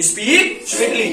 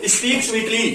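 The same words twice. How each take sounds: First: Very slow, every word stretched; slow, deliberate repeat. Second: Said in the usual way. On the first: Shown as a demonstration. Teacher repeating the English phrase very slowly for students. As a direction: spell it out slowly for the class. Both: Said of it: "मीठा बोलो".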